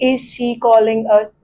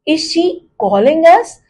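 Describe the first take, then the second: First: It is said with a flat statement tune. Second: It is said with a questioning tune. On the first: The speaker calls it wrong. "अब मैं इसे ऐसे नहीं बोल सकती ... वो question नहीं लगेगा।" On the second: The speaker calls it right. "अब मैंने टोन देखिए क्या किया।"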